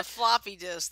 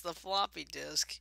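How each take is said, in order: First: Floppy disk said louder and clearer; emphatic repeat. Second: Said in the usual way. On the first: Shown as a demonstration. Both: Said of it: "A what?".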